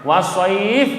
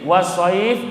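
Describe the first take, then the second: The two takes are said the same way.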